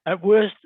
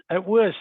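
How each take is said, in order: Both takes have the same delivery.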